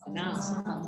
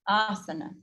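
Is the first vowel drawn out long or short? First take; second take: short; long. First: The first vowel is not drawn out. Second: The first vowel is drawn out long. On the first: The speaker calls it wrong. "or it's not this" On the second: The speaker calls it right. "we've got the long A and then the two short A's that follow"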